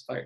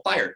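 First: "fire" split into two syllables, lower. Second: "Fire" squeezed into one quick, high syllable. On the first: Correcting the syllable count, two syllables. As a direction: sound out "fire" as fi-er, in two beats. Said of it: "Yeah, it's two syllables". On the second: Checking the slang's syllable count, one syllable. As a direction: say "Fire" fast as a single beat. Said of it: "not even still one syllable". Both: Shown as a demonstration.

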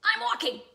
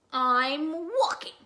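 First: High, loud, quick irritated burst; snapping. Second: Slow, loud, drawn-out grumble; grumpy bird. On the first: Grumpy Bird answering Raccoon, loud high snap. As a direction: snap it back at full pitch. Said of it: "snapped Bird". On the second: Grumpy Bird answering Rabbit, loud drawn-out grumble. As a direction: stretch it out loudly in irritation. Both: Acted.

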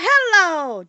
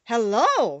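First: HELLO chanted high and loud; magic incantation. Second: Calm hello at an everyday pitch, firmly voiced; reply evenly as an unruffled Tin Woodman. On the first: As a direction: call out a drawn-out hello as a spell word. Dorothy recites the magic charm. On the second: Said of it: "replied the Tin Woodman calmly". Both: A narrator's reading.

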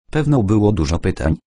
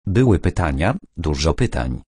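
First: Quick, knowing irony; fast ironic remark, lightly voiced. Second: Understated sad admission; sadly. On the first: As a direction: toss it off with mock innocence. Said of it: "nie kryjąc ironii". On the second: Acted. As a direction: let it sink, a touch of sadness. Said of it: "dokończył smutnie".

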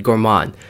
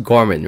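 First: "Gorman" as gor-MAHN, open "ah" at the end; "Gorman" ending like "mahn", fully voiced vowel; habitual Gor-MAHN pronunciation. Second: "Gorman" as GOR-mun, stressed first syllable; "Gorman" with a short, unstressed second vowel; corrected GOR-mun pronunciation. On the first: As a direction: put the weight on the second syllable of "Gorman". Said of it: "I always pronounce it Gorman". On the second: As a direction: hit GOR in "Gorman", reduce the ending to "mun". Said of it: "I'm pretty sure it's pronounced Gorman". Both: Shown as a demonstration.

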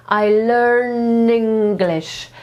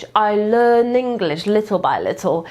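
First: I learn English very slowly, learn stressed; linked slowly. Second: Said in the usual way. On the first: Shown as a demonstration. Teacher showing how words merge. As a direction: draw out "learn" in one flow. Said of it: "znowu zlewa w jedno". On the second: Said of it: "powtarzaj za mną".

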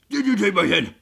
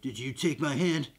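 First: Louder, mock-furious repeat; Rick's angry demand. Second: Low-key acted question; Rick questioning zombie. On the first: Rick confronts the zombie over his hand, loud mock anger. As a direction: demand an answer as a hammed-up Rick. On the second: Rick asks the zombie about his hand, low-key questioning. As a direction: put it to the zombie evenly. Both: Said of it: "He's like, "Zombie".

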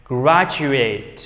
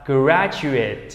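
First: Graduate as a verb, ending in a full "eight". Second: Graduate as a noun, ending in short "it". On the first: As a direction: say graduate with a long AY in the last syllable. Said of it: "thì nó sẽ được đọc thành âm". (đọc động từ graduate, đuôi "ây-t") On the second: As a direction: reduce the last syllable of graduate to "it". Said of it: "thành âm it". (đọc danh từ graduate, đuôi nhẹ "ít") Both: Shown as a demonstration.

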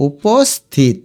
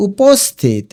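First: উপস্থিত slowly as u-pos, thit; split in syllables. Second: Said in the usual way. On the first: Shown as a demonstration. Teacher showing students, উপস্থিত slowly split u-pos-thit. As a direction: pause before the last syllable of উপস্থিত. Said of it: "এই দেখো". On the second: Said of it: "এটার উচ্চারণ".

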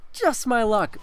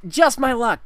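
First: Said in the usual way. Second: High, ironic just my luck; milk the bad luck; ironic groan. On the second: Real, not acted. Telling viewers his bad luck, he says it high and ironic.

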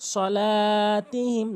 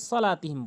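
First: সলাতিহিম with a long held "laa"; stretched lam. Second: সলাতিহিম said short with a quick "la"; wrong, unstretched. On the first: Shown as a demonstration. Teacher says the lam must be stretched, slow drawn-out chant. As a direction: recite সলাতিহিম slowly, drawing out the লা. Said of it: "লাম টানবেন অবশ্যই". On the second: Retold or imitated. Teacher mimics what many say, short flat-length vowels. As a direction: hurry through সলাতিহিম without holding the লা. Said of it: "অনেকে সলাতিহিম বলে".

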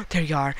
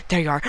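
No difference in how they are said.

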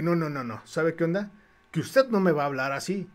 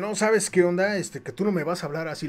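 First: Steady, level throw-back of his words; firm defiant echo. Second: Retold angry retort. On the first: Retold or imitated. Painter turning the gym owner's words back, firm and defiant. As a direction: hand his threat right back, unmoved. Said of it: "como me puse altanero". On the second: Gym owner angrily warning the painter, mock anger. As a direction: imitate a bristling gym owner snapping back. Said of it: "que se enoja".

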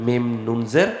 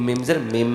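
First: "মিম নুন জের" with the n of "নুন" clearly sounded; name each letter distinctly in "মিম নুন জের"; spelled-out reading. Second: "মিম জের মিম" with m replacing n, last m held; as pronounced. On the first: Teacher shows how it is spelled, "মিম নুন জের" with n sounded. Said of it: "এমনি পড়বো". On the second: Teacher shows how it sounds, "মিম" ending in long m. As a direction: hum the closing m of "মিম জের মিম". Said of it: "আর উচ্চারণটা আসবে শুধু". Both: Shown as a demonstration.

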